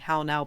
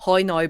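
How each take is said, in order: First: It is said in a plain accent. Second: It is said in a Northern Irish accent.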